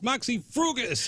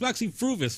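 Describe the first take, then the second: First: The second word has a 'g' sound inside. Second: The second word has a 'v' sound inside. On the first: Someone else mispronounced the band's name. The speaker calls it wrong. "would get up there and mispronounce" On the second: The band's name is said correctly. The speaker calls it right. "oh, [name], it's Moxie Fruvis"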